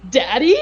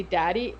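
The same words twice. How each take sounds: First: Loud questioning "Daddy?" with a sharp rise; retold yelp of "Daddy?", loud and rising; mock scream. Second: Said in the usual way. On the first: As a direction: imitate his startled outburst on "Daddy?", voice shooting up at the end. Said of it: "when he screams". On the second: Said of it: "you hear a voice say".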